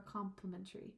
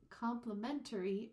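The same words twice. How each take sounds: First: "complimentary" with COM weighted at the start; stress on COM. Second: "complimentary" with MEN punched; stress on MEN. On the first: Teacher showing shifted stress, weight on first syllable. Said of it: "So those stresses, they can be shifted". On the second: Teacher showing shifted stress, weight on third syllable. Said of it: "A little bit different". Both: Shown as a demonstration.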